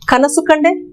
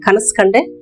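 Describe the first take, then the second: First: Every final vowel is fully pronounced. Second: The final vowel of 'kanasu' is dropped.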